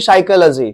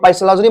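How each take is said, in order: First: The word starts with an s sound. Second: The word starts with a p sound. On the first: The speaker calls it right. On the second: The speaker calls it wrong.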